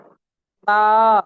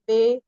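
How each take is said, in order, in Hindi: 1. अक्षर के नाम का अंत खुले 'a' स्वर से होता है। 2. अक्षर के नाम का अंत 'e' स्वर से होता है। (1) "यहाँ से पढ़िएगा" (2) "ऐसे नहीं पढ़ना है"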